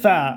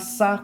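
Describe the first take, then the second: First: It starts with a th sound. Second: It starts with an s sound. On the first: The speaker calls it right. "C'est tha. La langue doit être positionnée entre les deux ensembles" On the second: The speaker calls it wrong. "ce n'est pas ça comme en français, S A"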